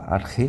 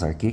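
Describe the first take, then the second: First: Only a raspy r sound is in the middle. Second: Only a plain k sound is in the middle. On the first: "pode falar Arre, que também está certo" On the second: "você pode falar apenas Arque, que está certo"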